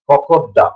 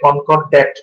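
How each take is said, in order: First: The final t is silent and n is weak. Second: The final t and the n are fully pronounced. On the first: The speaker calls it right. "উচ্চারণে টিটা মিউট থাকবে এবং এনটাও কিন্তু পুরোপুরি উচ্চারণ হবে না" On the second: The speaker calls it wrong. "কনকর্ড্যাট উচ্চারণটা এক্ষেত্রে সঠিক নয়"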